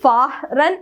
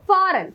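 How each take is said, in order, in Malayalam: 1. ഈ വാക്കിൽ h ശബ്ദം ഉച്ചരിക്കുന്നുണ്ട്. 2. h നിശബ്ദമാണ്, അതിനാൽ 'a' ദീർഘമായി വരുന്നു. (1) "ഒരിക്കലും നമ്മൾ ഫാറൻ എന്ന് പറയില്ല. എച്ച് സൗണ്ട് ചെയ്യില്ല ഒരിക്കലും" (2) "എച്ച് സൈലന്റ് ആക്കി പറയാം"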